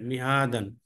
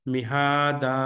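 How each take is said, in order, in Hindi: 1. शब्द n ध्वनि से खत्म होता है। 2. शब्द लंबे a स्वर से खत्म होता है। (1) "दो जबर है" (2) "अगर आप रोक रहे तो एक जबर हटा दीजिए"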